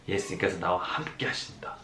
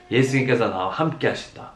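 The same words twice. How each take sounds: First: Low, soft, inward; hushed, much lower and softer; quiet first take. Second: Said in the usual way. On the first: Shown as a demonstration. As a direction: say it softly to yourself first.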